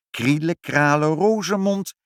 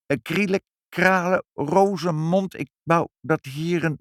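First: Confident spell. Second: Nervous spell. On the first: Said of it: "Als ik de toverspreuk maar zeg". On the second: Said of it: "maar ditmaal erg zenuwachtig". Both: A narrator's reading.

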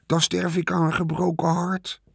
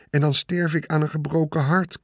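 First: Higher, hammed-up mock heartbreak; mocking imitation. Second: Earnest, higher, a touch despairing; mean it from the heart; desperate plea. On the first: The rat mocking Wilbur's words back at him, sarcastic mimicry. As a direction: parrot the pig's line sarcastically. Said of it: "deed hij Wilbur na". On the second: Acted. Wilbur begging the rat, sincere desperate plea. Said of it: "zei Wilbur wanhopig".

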